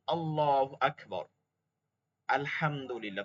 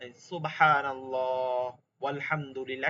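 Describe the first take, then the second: First: A full stop between আল্লাহু আকবার and আলহামদুলিল্লাহ; pausing between phrases. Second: সুবহানাল্লাহ flows into ওয়ালহামদুলিল্লাহ with no stop; run together. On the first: Teacher showing students a clear stop between phrases. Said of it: "থেমে থেমে বলেন". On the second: Teacher showing how the phrases join with wa. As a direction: link ওয়ালহামদুলিল্লাহ to সুবহানাল্লাহ with the joining wa. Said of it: "আর যদি একবারে বলি". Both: Shown as a demonstration.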